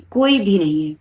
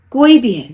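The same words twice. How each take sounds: First: Said in the usual way. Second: Loud, high burst on کوئی; emphatic outburst. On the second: Real, not acted. Vlogger warning parents about relatives, loud emphatic burst. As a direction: throw کوئی بھی ہے out loud and hard, high on کوئی.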